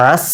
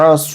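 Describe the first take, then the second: First: আস with ain and a light dental s; আস with a plain s against the teeth; dental sin ending. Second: আস with ain and a heavy, emphatic s; আস with a thick s, as for sad; Arabic sad ending. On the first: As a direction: end আস on a thin, clear Arabic sin. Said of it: "এটা দন্ত স একবারে ধরে নেবেন". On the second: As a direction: end আস on the full, dark Arabic sad. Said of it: "আস বলছিলাম সদের বেলায়". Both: Shown as a demonstration.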